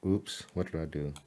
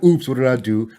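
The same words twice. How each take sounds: First: Soft, low startled mutter to self; quiet surprised oops at the screen. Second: Replaying the slip, louder and brighter; hammed-up oops for the viewer; mock startled oops. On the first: Real, not acted. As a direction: catch a slip under the breath. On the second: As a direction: act out a mild mock panic. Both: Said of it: "I was like".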